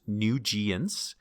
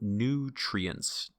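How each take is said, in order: First: The r sound in the middle is missing. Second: The r sound in the middle is clearly heard. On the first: The speaker calls it wrong. "it was pronounced nugients" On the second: The speaker calls it right. "We want to hear the R in the middle"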